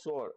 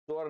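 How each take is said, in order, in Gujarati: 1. શબ્દ s અવાજથી શરૂ થાય છે. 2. શબ્દ ch અવાજથી શરૂ થાય છે. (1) "ચ અને છ ને બદલે સસલાનો સ" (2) "ચ અને છ ને બદલે સસલાનો સ"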